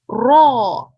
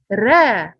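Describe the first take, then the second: First: The r is heavy, with a full rounded sound. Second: The r is light, with an open empty sound. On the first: The speaker calls it right. "the back part of our tongue must rises up like this" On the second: The speaker calls it wrong. "it will not be right if you said ra"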